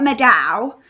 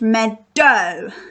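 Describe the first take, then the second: First: The ending sounds like the vowel in cow. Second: The ending sounds like the vowel in snow. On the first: The speaker calls it wrong. "it's not making the ow sound. So it's not it's not meadow" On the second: The speaker calls it right. "but it's meadow, like in the word snow"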